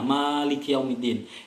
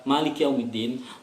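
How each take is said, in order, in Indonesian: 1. Vokal pertama pada Maliki dibaca panjang. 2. Vokal pertama pada Maliki dibaca pendek. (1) "kan itu ada alifnya" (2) "Itu dihilangi alifnya di sini"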